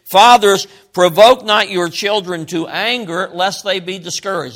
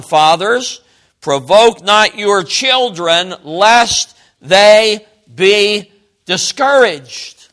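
First: Said in the usual way. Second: Slow, loud verse reading building to "discouraged"; deliberate, forceful emphasis landing on "discouraged"; stress on DISCOURAGED. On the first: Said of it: "emphasis of this verse is not anger". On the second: Shown as a demonstration. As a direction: space out "lest they be discouraged" word by word, heavily. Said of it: "The emphasis is discouragement".

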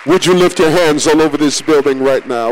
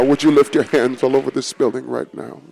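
First: Said in the usual way. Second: Lower, softer call to prayer; quiet invitation to lift hands; softer repeat. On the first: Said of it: "call to congregation". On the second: Acted. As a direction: repeat it hushed and earnest. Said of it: "repeated softer".

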